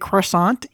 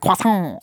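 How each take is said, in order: First: The word is pronounced with an English-style sound. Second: The word is pronounced with a French-style sound. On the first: "It just hurts me to say croissant" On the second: "there's a lot of like faux French pronunciation"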